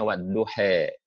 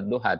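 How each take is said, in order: First: The final vowel is raised toward e. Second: The final vowel is an open a sound. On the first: This is the North African reading tradition. "tapi bilangnya wadduhe" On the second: "dia tidak wadduha"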